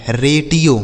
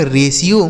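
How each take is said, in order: First: रेटियो said with a hard t, "ray-tee-o"; रेटियो, the wrong way with a t sound; रेटियो with t, as a mistake shown to kids; wrong pronunciation. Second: रेशियो said with a sh sound, "ray-shee-o"; रेशियो, the right way with sh in the middle; रेशियो with sh, as the teacher's model; correct pronunciation. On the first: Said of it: "रेटियो गलत उच्चारण है". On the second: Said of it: "इसे रेशियो पढ़ा जाएगा". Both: Shown as a demonstration.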